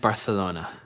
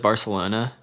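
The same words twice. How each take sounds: First: The c is lisped like a th sound. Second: The c is said like an s sound. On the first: It is said to sound elitist as a joke. "I don't know if you lisp the soft C in Barcelona" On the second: It is the way most people say it. "everybody says Barcelona"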